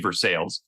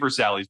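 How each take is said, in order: First: It is pronounced the local American way. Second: It is pronounced the standard French way. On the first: "but they do say Versailles" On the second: "where people they don't say Versailles"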